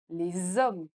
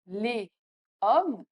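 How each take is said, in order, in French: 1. Les mots sont liés avec un son Z. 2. Les mots sont prononcés séparément, sans liaison en Z.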